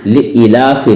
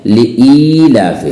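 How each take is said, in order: First: लिईलाफि with a short second i; wrong short vowel. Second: लिईलाफि with a long, held "ee"; correct long vowel. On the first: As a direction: say लिईलाफि without stretching the "ee". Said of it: "नहीं है". (लिईलाफि में ई छोटी, ग़लत) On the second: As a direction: stretch the second vowel of लिईलाफि. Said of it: "लिईलाफि नहीं है". (लिईलाफि में ई खींचकर) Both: Shown as a demonstration.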